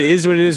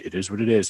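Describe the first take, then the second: First: It is said in a light, smiling tone. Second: It is said in a flat, gloomy tone. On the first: Accept the situation and carry on. The speaker calls it right. "with a smile on your face" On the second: Things are hopeless and we are stuck. The speaker calls it wrong. "it's dismal"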